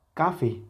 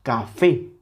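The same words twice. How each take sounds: First: "café" stressed on "ca", dropping on "fe"; sin fuerza en la última. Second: "Café" with a strong, punched "fé"; acento en la última sílaba. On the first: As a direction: say "café" as CAfe. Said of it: "Ya no es lo mismo". ("café" con el golpe en "ca", "fe" débil) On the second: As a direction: hit the final "fé" of "Café". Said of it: "con esa intensidad en la última sílaba". ("Café" rematado con fuerza en "fé") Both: Shown as a demonstration.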